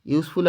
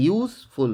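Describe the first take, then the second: First: Said in the usual way. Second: useful broken into two beats, ইউজ and ফুল; ইউজ, then ফুল, each syllable set apart; split into syllables. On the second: Shown as a demonstration. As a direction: say useful with a small break before ফুল. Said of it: "দেখো, দুটো syllable আছে".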